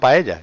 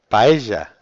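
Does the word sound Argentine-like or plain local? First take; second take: plain local; Argentine-like. First: The word is said with a plain local sound. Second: The word is said with an Argentine-like sound. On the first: "Yo digo paella" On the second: "Un poco como los argentinos, ¿no?"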